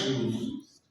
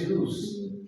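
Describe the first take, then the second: First: The word ends with a z sound. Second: The word ends with an s sound. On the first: The speaker calls it wrong. "not use" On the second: The speaker calls it right. "in the noun form, it is use"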